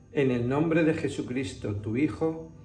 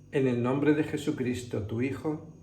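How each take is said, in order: No difference in how they are said.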